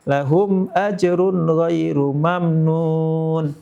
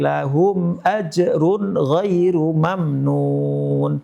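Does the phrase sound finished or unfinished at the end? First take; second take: unfinished; finished. First: The melody stays suspended, as if continuing. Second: The melody comes to a full, final close. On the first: More of the recitation seems to follow. The speaker calls it wrong. "Tapi bacaannya ... intonasinya seakan belum selesai" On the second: The verse and the recitation end here. The speaker calls it right. "Mestinya dia baca intonasi ... Titik"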